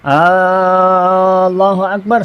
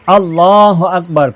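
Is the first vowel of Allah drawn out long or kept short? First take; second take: long; short. First: The opening vowel of Allah is drawn out long. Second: The opening vowel of Allah is kept short. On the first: The speaker calls it wrong. "tu alif tu hamzah tu tak boleh panjang. Allahu Akbar, salah" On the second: The speaker calls it right. "Mesti sebut Allahu Akbar, pendek"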